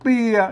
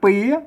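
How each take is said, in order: First: The syllable is said with a low tone. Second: The syllable is said with a rising tone. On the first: "เอก" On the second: "จัตวา"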